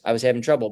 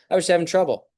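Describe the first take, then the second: First: Said in the usual way. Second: "I was having trouble" said much higher, light and bright; upbeat reframing. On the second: Acted. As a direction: lift the whole line up high, like relief. Reframed self-talk quote.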